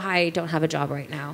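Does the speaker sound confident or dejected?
dejected. It sounds flat, hesitant and deflated. Being jobless sounds like a setback. The speaker calls it wrong.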